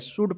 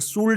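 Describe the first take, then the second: First: The L sound is silent in the word. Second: The L sound is pronounced in the word. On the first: The speaker calls it right. "एल जो है ना silent रहेगा" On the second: The speaker calls it wrong. "इसको शुल्ड मत पढ़िएगा"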